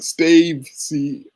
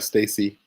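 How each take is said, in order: First: The name is read letter by letter, with a v. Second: The name is said smoothly as Stacy, without v.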